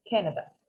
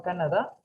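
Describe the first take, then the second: First: "Canada" with a first vowel close to E, stress on the start; English Canada. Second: "Canadá" with open A sounds and stress on the end; the Spanish way, ending on a stressed DÁ. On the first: Teacher models the English name for Gladys. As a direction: say it "KEN-a-da". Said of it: "Canada lo puedes pronunciar en inglés". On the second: Teacher shows Gladys the wrong Spanish stress. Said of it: "No Canadá". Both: Shown as a demonstration.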